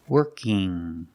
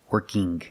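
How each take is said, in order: First: It ends in a nasal ng sound, no g. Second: It ends with an audible hard g sound. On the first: The speaker calls it right. "I have ing, where I make the sound in my nose" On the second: The speaker calls it wrong. "But I cannot say working, working. This is not correct. It sounds strange"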